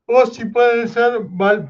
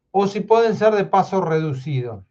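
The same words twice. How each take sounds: First: High, slow, talking through a yawn; words stretched by a real yawn. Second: Said in the usual way. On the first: Real, not acted. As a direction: try to speak while a yawn takes over. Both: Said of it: "perdón que estoy bostezando".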